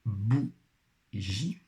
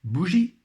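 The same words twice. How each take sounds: First: "bougie" split into bou, long pause, gie; syllable by syllable. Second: Said in the usual way. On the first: Shown as a demonstration. Teacher helping pupils find the syllable, syllable by syllable. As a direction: sound out "bougie" slowly in two beats. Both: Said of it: "première syllabe".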